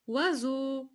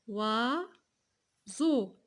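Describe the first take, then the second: First: Said in the usual way. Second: "Oiseau" stretched as OI, long pause, SEAU; syllable by syllable. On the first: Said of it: "On a dit". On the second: Shown as a demonstration. Teacher asking where z falls, "Oiseau" split in two. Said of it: "Début ou bien la fin?".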